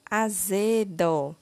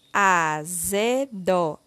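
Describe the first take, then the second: First: Said in the usual way. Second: AZEDO drawn out slowly as a, ze, do; syllable by syllable. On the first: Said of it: "formando a palavra". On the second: Shown as a demonstration. Teacher completing the word with syllable zé, slowly syllable by syllable. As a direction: sound out AZEDO one syllable at a time. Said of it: "Iremos utilizar a sílaba zé".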